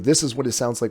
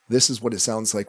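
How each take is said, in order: First: The voice sounds muddy and less clear. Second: The voice sounds clear and crisp. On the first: The speaker calls it wrong. "without any effects on it at all. Um, again, it probably sounds a little muddier, doesn't sound as clear" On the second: The speaker calls it right. "when you turn them back on"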